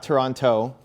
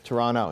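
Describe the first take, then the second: First: The final T sound is clearly pronounced. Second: The final T sound is dropped. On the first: The speaker calls it wrong. "we don't pronounce the last T. So it's not, not Toronto" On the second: The speaker calls it right. "It's Toronto"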